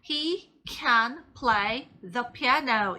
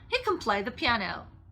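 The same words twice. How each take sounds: First: Can is said slowly with a clear full vowel. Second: Can is said quickly with a weak vowel. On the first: "하나하나 따로따로 또렷하게 천천히 발음할 때는" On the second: "정말 편하게 얘기할 때는요"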